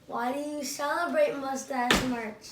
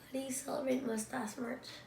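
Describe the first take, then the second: First: It is said much louder, almost shouted. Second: It is said at a normal, softer volume.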